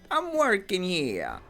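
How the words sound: It is said in a Boston accent.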